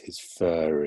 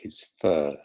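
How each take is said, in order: First: An R sound links fur to the next vowel. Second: Fur ends with no R sound at all. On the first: "You can actually hear it in the in this case" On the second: "when it's not followed by a vowel, then um, you don't hear it"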